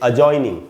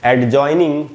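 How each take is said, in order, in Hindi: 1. j से पहले d की कोई आवाज़ नहीं सुनाई देती। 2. j से पहले d की आवाज़ सुनाई देती है। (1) "डी साइलेंट होगा" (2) "एडजॉइनिंग नहीं पढ़ना चाहिए जैसा कि सब लोग पढ़ते हैं"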